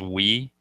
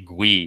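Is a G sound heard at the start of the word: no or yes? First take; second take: No; Yes. First: The word starts without a G sound. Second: The word starts with a G sound. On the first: "people pronounce it as we" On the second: "or you could say Gui with a G"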